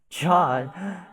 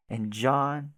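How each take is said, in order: First: John? jumps higher and louder, a stunned question; sudden shock as the name sinks in; shocked gasp of recognition. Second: Said in the usual way. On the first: Acted. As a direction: realise all at once who she means.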